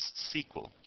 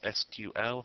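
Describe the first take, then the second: First: It is said as a single word. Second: It is spelled out letter by letter.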